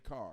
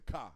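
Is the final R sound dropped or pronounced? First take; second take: pronounced; dropped. First: The word ends with a clear R sound. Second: The word ends without any R sound. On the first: The speaker calls it wrong. "you can't say car" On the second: The speaker calls it right.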